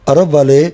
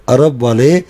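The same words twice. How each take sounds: No difference in how they are said.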